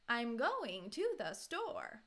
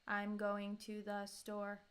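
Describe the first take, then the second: First: The emphasis falls in odd places. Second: It is said flat with no emphasis. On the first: "put emphasis, stress, intonation in the wrong places" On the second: "trying to do as flat as possible"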